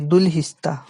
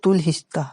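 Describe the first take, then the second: First: The name begins with a D sound. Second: The name begins with a T sound. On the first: The speaker calls it right. "दुलहिस्ता ही सही होगा" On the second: The speaker calls it wrong. "तुलहिस्ता भी बोलते हैं"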